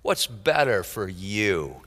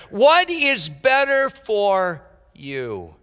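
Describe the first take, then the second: First: Quiet repeat. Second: Slow, drawn-out question leaning on "What"; slow emphatic question. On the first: Preacher echoes his own question to the congregation, quietly. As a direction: lower and softer, "What's" falling. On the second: Preacher poses the question to his congregation, slow and emphatic. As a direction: stretch "What" long and falling, then let the rest follow slowly. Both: Shown as a demonstration. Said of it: "What a question".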